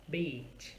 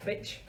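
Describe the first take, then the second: First: "beach" with a lengthened ee; long vowel. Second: "bitch" with a quick, short i; short quick vowel. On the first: Teacher contrasts two similar words, long vowel. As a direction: stretch the ee in "beach". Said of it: "gonna make the sound longer". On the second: Teacher contrasts two similar words, short vowel. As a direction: keep the i in "bitch" brief. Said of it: "I is a quick sound". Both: Shown as a demonstration.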